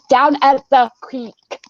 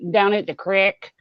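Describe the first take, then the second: First: The word creek is said with a long vowel. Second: The word creek is said with a short vowel. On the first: It is the speaker's adopted way after being teased. "I switched it" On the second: It is the speaker's old rural way of talking. "That's my redneck coming out"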